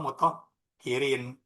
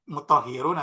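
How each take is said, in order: First: The word ends with the vowel sound -in. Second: The word ends with the vowel sound -un. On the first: "Cara bacanya mutohirun atau mutohirin" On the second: "Cara bacanya mutohirun atau mutohirin"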